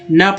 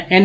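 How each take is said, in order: First: "न" as a short "na" sound; letter sound. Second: "एन" as the name of the letter N; letter name, rejected. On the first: Teacher giving the sound to read, short "न". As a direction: say "न" with the consonant first. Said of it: "न पढ़ेंगे". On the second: Teacher showing what not to read, letter name "एन". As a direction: say "एन" with the vowel first. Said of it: "एन नहीं पढ़ेंगे". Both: Shown as a demonstration.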